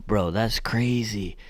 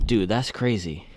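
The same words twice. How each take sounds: First: Slow, breathy whisper of disbelief; awed whisper. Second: Said in the usual way. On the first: Real, not acted. Reviewer stunned by the shoe's weight, slow awed whisper. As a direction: whisper it like you can't believe it. Repeats line, second whispered.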